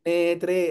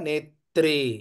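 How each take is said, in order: First: The r sound is said softly and lightly. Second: The r sound is said harshly and firmly. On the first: The speaker calls it wrong. "మృదువుగా నేత్రే నేత్రే అని కాకుండా" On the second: The speaker calls it right. "రేఫని కొంచెం harsh గానే పలికితే"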